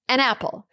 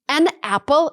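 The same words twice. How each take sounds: First: The final n links into the vowel. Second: The two words are said apart.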